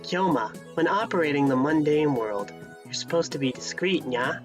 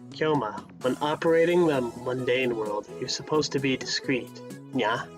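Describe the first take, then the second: First: It is read in a put-on Ferris voice. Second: It is read in his own normal voice.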